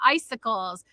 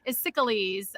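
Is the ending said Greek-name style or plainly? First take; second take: plain; Greek-style. First: The ending is said the ordinary way. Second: The ending is said like a Greek hero's name.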